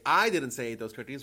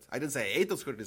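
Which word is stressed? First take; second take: I; ate. First: The first word, I, is stressed. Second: The word ate is stressed. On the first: Someone else said it. "someone else said it" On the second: The speaker did something else to them. "I might have squashed them"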